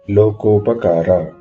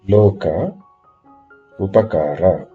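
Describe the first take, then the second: First: The words merge into one without a gap. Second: Two words are said slowly and separately. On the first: "if you join them together" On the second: "Read slowly"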